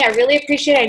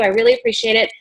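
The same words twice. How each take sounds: First: Said in the usual way. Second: "really" leaps up high in a rush of gratitude; gushing thanks. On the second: Shown as a demonstration. Consultant gushing thanks to a prospective hostess, high and bright. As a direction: gush your thanks, voice soaring on "really". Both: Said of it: "here's my lookbook".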